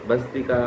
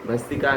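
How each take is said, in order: Both takes have the same delivery.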